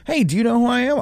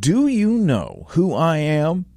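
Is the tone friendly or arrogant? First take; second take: friendly; arrogant. First: It is said in a friendly, curious tone. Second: It is said in an arrogant, entitled tone.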